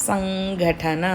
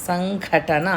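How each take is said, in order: No difference in how they are said.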